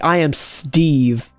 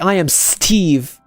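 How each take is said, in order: First: The consonant after S sounds like a D. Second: The consonant after S sounds like a T. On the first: "we say I am Steve" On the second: "we don't say I am Steve"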